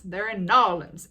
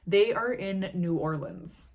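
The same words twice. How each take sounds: First: Loud, put-on New Orleans drawl; hammed-up Southern New Orleans accent. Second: Said in the usual way. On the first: Shown as a demonstration. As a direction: punch "Narlands" as one drawled local word. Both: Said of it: "has a drawl".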